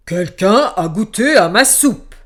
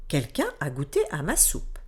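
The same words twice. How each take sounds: First: Loud booming bear voice; big bear voice. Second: Middle bear voice. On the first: Big bear looking at his bowl, loud booming voice. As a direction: boom it out like a giant bear. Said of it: "regarda son bol et dit". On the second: Middle bear checking her soup, lower calmer voice. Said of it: "Et l'ours moyen dit". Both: A narrator's reading.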